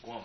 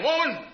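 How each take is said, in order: First: "Woman" said gently, soft and low; kind woman. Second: "Woman" snapped high and sharp; harsh woman. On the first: Preacher shows Jesus calling his mother, tender. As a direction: speak "Woman" with kindness. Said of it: "in kindness and sincerity". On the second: Preacher shows the wrong, rude tone of woman. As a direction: fling "Woman" out rudely, high pitch. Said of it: "he's not saying". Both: Shown as a demonstration.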